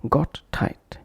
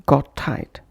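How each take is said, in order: First: GOT, break, TIGHT, both t's sounded; separate words. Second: GOT TIGHT joined on one t; linked consonants. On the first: Teacher showing what to avoid, separate words. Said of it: "instead of". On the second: Teacher showing the correct connection, linked consonants. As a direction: flow "got" into "tight" with a single t. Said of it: "pronounced as". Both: Shown as a demonstration.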